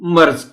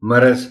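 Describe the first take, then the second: First: The r and z sounds run together. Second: A short vowel separates the r and z. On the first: The speaker calls it wrong. "मर्ज पढ़ जाते हैं" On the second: The speaker calls it right. "मरज है लफ्ज"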